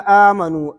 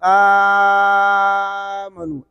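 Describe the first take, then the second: First: The first vowel is held short. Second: The first vowel is held long. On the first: "पहले कसर" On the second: "फिर तूल"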